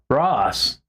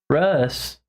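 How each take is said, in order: First: The vowel sounds like the 'o' in 'boss'. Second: The vowel sounds like the 'u' in 'bus'. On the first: The speaker calls it right. "it's an O" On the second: The speaker calls it wrong. "Sometimes people mispronounce my name as Russ"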